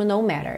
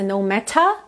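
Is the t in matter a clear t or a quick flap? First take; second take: flap; clear t. First: The t in matter is a quick flap. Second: The t in matter is a clear t. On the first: "mas aqui ele usa mesmo no matter" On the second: "Poderia ser no matter"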